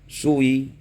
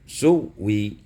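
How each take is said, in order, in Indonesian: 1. Vokal bergerak ke belakang, tanpa bunyi w. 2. Hamzah menjadi bunyi w sebelum i. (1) "dibaca dengan rum" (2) "dibaca dengan rum"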